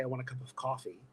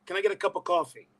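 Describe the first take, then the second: First: Said in the usual way. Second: Higher, broad Brooklyn "coffee"; Brooklyn accent. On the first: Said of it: "when I'm really tired and I say". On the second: Shown as a demonstration. Showing how tiredness brings it back, Brooklyn accent. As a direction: let the Brooklyn slip out. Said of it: "Brooklyn right there".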